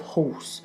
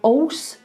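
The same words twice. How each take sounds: First: The word starts with a clear H sound. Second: The word starts without an H sound. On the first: "instead of horse" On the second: "We do drop our H's sometimes. Not as often as Cockneys"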